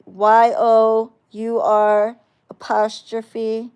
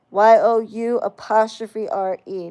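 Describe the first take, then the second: First: Slow, loud letter-by-letter spelling of "Y O U R apostrophe", every letter separated; spelled out letter by letter. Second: Spelled out letter by letter. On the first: Mocking a commenter's spelling, spelling their version out slowly. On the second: Correcting a commenter, spelling the right version letter by letter. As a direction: correct spelling "Y O U apostrophe R E", each letter said separately. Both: Shown as a demonstration. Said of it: "not your".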